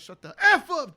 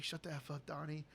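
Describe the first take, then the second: First: Sudden loud, high yell of "Shut the F up"; loud outburst. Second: Low, soft shushing scold; hushed telling-off. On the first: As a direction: blurt it out way too loud. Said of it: "'cause they're in an auditorium, he goes". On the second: Walter hushing Donnie in the auditorium, quiet scold. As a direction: keep it down but firm. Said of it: "He's like". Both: Retold or imitated.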